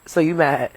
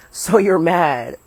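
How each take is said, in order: First: Said in the usual way. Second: Slow, loud teasing; drawn-out taunt. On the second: Real, not acted. Teasing the one who wants to go inside, slow taunt. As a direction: stretch it out to needle someone.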